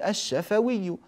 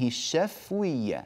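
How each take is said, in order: First: The fa' sound carries an a vowel. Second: The fa' sound carries no vowel. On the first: This is the normal form of the word. "والشفة بفتح الفاء، فنقول الشفوي" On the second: It is shortened to fit the poem's meter. "هكذا بسكون الفاء في البيت"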